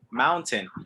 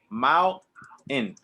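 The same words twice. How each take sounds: First: The T sound is clearly pronounced. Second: The T sound is dropped. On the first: This is how it is said elsewhere in the world. "they pronounce the T" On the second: This is how it is said in American and Canadian English. "So you're going to do the same thing"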